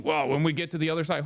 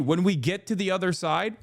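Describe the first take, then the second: First: Softer, prim quoting of the critic's words; mock quote. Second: Rising disbelieving repeat of "When we get to the other side?"; incredulous echo. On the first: Quoting the critic's post, prissy mock tone. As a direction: read the phrase back in a prissy voice. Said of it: "quoting critic mockingly". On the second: Real, not acted. To chat, mocking the critic's phrase, scoffing rising echo.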